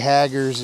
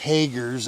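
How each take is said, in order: First: The first vowel is short, like in 'hag'. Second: The first vowel is long, like in 'hay'. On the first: The speaker calls it wrong. "I always get ridiculed for saying it wrong. I say Haggers" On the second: The speaker calls it right. "it's Hagers, I guess"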